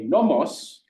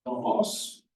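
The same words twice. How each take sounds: First: Nomos slow, accent on the first syllable, falling; pitch accent demo. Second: Nomos pitched high with a falling end; high falling Greek accent on nomos; pitch accent demo. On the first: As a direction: stretch nomos and let it fall. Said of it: "but a nomos". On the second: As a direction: sing nomos high then drop. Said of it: "look at these two nouns". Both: Shown as a demonstration.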